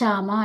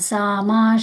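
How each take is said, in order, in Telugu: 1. ఈ పదం sh ధ్వనితో మొదలవుతుంది. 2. ఈ పదం s ధ్వనితో మొదలవుతుంది. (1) "ఇక్కడ షామ అన్నారు. ఇక్కడ షా కాదు" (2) "సామా శాంతిరేధి"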